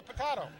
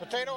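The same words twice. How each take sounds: First: Potato with a broad ah in the middle; pronunciation poh-TAH-toh. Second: Potato with an ay in the middle; pronunciation poh-TAY-toh. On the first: Co-commentator extends the joke, potato as poh-TAH-toh. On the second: Co-commentator extends the joke, Potato as poh-TAY-toh. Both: Shown as a demonstration. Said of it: "Is it Krieger or Krieger?".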